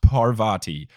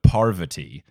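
First: The stress is not on the first syllable. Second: The stress is on the first syllable. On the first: The speaker calls it wrong. "not Parvati" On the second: The speaker calls it right. "but Parvati is apparently the correct way"

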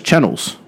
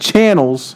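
First: The 'an' vowel is swallowed and unclear. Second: The 'an' vowel is clear and emphasized. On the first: The speaker calls it wrong. "Rudy doesn't know how to say the word channel" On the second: The speaker calls it right. "There you go. That sounds normal"

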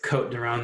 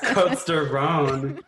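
First: No S sound is heard after Côte. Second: An S sound is heard after Côte. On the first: The speaker calls it right. "the S is silent" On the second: The speaker calls it wrong. "So pronounce that S"

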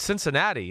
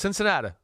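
First: The final vowel is a clear 'ee' sound. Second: The final vowel is a relaxed 'uh' sound. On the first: The speaker calls it right. "Dad, it's Cincinnati" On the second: The speaker calls it wrong. "no, it's Cincinnata"

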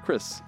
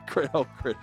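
First: The name ends with an 's' sound. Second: The name ends with a 'sh' sound. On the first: The speaker calls it right. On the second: The speaker calls it wrong.

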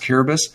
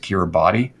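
First: The name is pronounced differently from its spelling. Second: The name is pronounced the way it is spelled. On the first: The speaker calls it right. "But it's actually pronounced Kiribati" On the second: The speaker calls it wrong. "You might pronounce it Kiribati, but it's actually that's how it looks like it's spelled"

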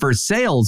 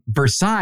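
First: It is pronounced the Kentucky way. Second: It is pronounced the French way. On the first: "is how they pronounce it in Kentucky" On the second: "is how the French pronounce it"

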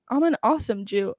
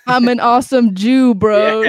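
First: It is said at normal volume. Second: It is said louder, almost shouted.

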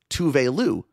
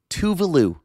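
First: Two words, the second ending in an 'oo' sound. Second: It runs together as one word, 'Tuvalu'. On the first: The speaker calls it wrong. "but as [name]" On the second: The speaker calls it right. "apparently pronounced Tuvalu"

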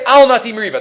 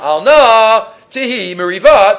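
First: It is read straight through without a pause. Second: There is a pause after "al na".

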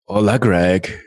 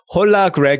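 First: It is said in his ordinary accent. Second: It is said in a Korean accent.

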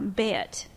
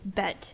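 First: The vowel is raised and tensed, rural Southern style. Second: The vowel is a short, plain Northern e. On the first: "in a lot of places in the rural South ... you would say it more like bet" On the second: "in the North, you might pronounce it bet"

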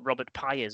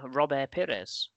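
First: The name is pronounced the anglicized way. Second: The name is pronounced the French way.

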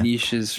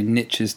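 First: It is said 'neeshes', not rhyming with 'riches'. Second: It is said 'nitches', rhyming with 'riches'. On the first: The speaker calls it right. "if you pronounce it properly" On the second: The speaker calls it wrong. "my American friends, say niches for riches"

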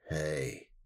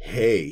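First: It is said in a creepy, suggestive way. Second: It is said in a plain, friendly way.

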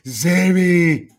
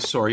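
First: It is said with an American accent. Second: It is said with a Canadian accent.

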